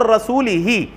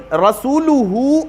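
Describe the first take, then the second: First: رسولہ ending -lihi; rasulihi. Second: رسولہ slow, ending -luhu; rasuluhu. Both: Shown as a demonstration. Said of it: "معنی میں تو کوئی تبدیلی نہیں".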